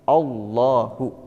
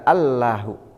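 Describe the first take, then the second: First: The L sound is heavy and thick. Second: The L sound is light and thin. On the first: The speaker calls it right. "tafkhim, tebal" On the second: The speaker calls it wrong. "Tidak tarkik, tidak Allahu"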